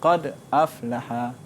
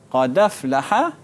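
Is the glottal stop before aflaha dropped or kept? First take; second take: kept; dropped. First: A glottal stop follows the silent d. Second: The d runs straight into the following vowel. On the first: "dia baca sakin" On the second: "dia akan baca naqal"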